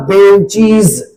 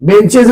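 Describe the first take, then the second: First: बेंचीज ending in a long "eez"; correct plural pronunciation. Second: बेंचेज with a short "ez" ending; short e in the last syllable of बेंचेज; wrong plural pronunciation. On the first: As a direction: say बेंचीज with a clear -cheez ending. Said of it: "इसका उच्चारण होता है". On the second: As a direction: say बेंचेज ending in -chez, not -cheez. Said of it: "बेंचेज नहीं". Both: Shown as a demonstration.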